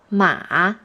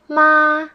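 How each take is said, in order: First: The pitch falls low then rises again. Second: The pitch stays high and level. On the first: The word means horse. "the third tone is the falling rising tone" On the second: The word means mother. "the first tone is the flat tone"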